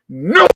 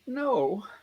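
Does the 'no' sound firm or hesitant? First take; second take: firm; hesitant. First: It is said firmly and forcefully. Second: It is said hesitantly and uncertainly. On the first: The answer is absolutely not. "Absolutely comes to mind. That's the first of the three, and it's the word no with that energy" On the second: The answer is maybe. "is there a maybe in there? ... so that's very different than the first no"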